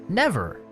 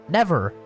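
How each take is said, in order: No difference in how they are said.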